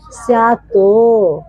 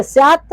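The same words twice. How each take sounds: First: स्यातो said slowly, with the final तो fully sounded; teacher showing the Sanskrit reading with a full ending. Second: स्यात said ending in a half t with no vowel after it; teacher showing the Hindi reading of स्यात; half final t. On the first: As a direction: let the तो in स्यातो come out whole. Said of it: "तो को पूरा बोलना है". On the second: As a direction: stop स्यात dead on the half t. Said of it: "इसको बोलेंगे स्यातो". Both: Shown as a demonstration.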